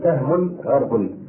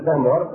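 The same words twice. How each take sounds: First: The r in the second word takes a vowel. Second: The r in the second word has no vowel. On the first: "وقد تحرك الراء" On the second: "يمكن تقول سهم غرب"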